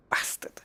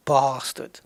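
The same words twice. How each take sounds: First: "bastard" with a short a as in "cat", softer; short-a "bastard", the model version; proper English pronunciation. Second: "bastard" with a long ah, "bah-stard"; long-a "bastard", like "bahstard"; wrong pronunciation. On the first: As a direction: drop the volume and clip "bastard" to the a of "hat". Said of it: "That's proper English". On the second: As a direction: draw out the first vowel of "bastard" as in "father". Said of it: "It's not bastard". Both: Shown as a demonstration.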